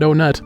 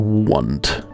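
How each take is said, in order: First: The name begins with an 'oh' sound. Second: The name begins with a 'w' sound. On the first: The speaker calls it wrong. "I almost said Onet. That's not how you pronounce it" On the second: The speaker calls it right. "It's pronounced Want"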